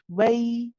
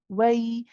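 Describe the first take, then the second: The two takes are said the same way.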